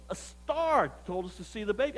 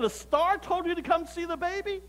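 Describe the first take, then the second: First: Measured, matter-of-fact statement; voiced visitor's earnest answer; plain-faced explanation. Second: High-pitched disbelieving question; acted incredulity, climbing high; incredulous echo. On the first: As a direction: offer it as a simple fact, a bit softly. Rich visitors explain why they came. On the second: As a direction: throw it back in disbelief, pitched way up. Narrator repeats answer in disbelief.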